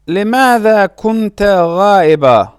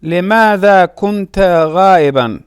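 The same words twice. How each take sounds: First: غائبا said "ghaa-i-baa", no final n; pausal ending. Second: غائبا said "ghaa-i-ban", with final n; full case ending. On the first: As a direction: drop the n sound at the end of غائبا. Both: Shown as a demonstration.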